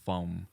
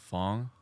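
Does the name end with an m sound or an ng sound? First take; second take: m sound; ng sound. First: The name ends with a short m sound. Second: The name ends with an ng sound. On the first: "the correct pronunciation is Fong" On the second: "my name is uh"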